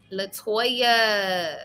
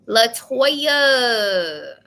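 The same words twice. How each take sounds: First: Said in the usual way. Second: Calling out louder. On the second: Real, not acted. Reader calling out to caller Latoya, louder. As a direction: call the name out.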